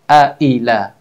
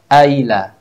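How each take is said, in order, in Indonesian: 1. Hamzah diucapkan dengan tegas dan jelas. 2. Hamzah dilemahkan dan hampir tidak terdengar. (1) "suara hamzahnya jelas terbaca"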